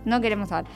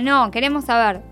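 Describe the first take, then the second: First: The words run on with no pause. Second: There is a pause after the word no. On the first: We do not want to know. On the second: The answer is no, and we do want to know.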